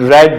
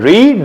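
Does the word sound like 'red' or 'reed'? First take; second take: red; reed. First: The vowel is short, like 'red'. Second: The vowel is long, like 'reed'. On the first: It is the past or past participle form. "But pronunciation रेड होती है" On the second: It is the present form of the verb. "First form रीड"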